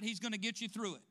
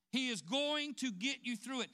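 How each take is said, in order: First: Said in the usual way. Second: "is going" spelled out and stressed; emphatic restatement. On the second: Shown as a demonstration. Preacher insisting to the congregation that God will see them through, with firm emphasis on "is going".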